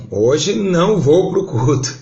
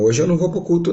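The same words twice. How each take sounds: First: "não" stretched, slow and louder; slow, louder "Hoje não vou pro culto" with heavy "não"; stubborn refusal. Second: Said in the usual way. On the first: Retold or imitated. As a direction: dig in and drag out "não" like a stubborn child. Refusing God's call to church.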